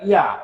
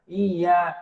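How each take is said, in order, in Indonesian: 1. Bunyi y tunggal dan pendek. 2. Bunyi y digandakan dan ditahan panjang. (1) "bukan iya" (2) "ada berat dia"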